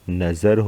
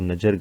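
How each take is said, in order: First: The middle consonant is a z sound. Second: The middle consonant is a plain j sound. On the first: The speaker calls it right. "नजर होता है, तो कहाँ पर आएगा? ज के नीचे" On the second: The speaker calls it wrong. "अब नजर गलत है"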